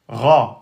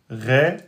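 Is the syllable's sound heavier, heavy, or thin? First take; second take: heavy; thin. First: The syllable has a moderately heavy, open vowel. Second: The syllable has a thin, fronted vowel. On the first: The speaker calls it right. "c'est le Ra" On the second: The speaker calls it wrong. "si vous dites Ré, ça c'est faux"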